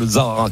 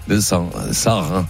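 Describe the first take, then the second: First: The word begins with a buzzing Z sound. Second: The word begins with a clear S sound. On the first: "Instinctivement, tu le dis ça, le Zahara, comme ça" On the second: "Comment tu le prononces, ce désert?"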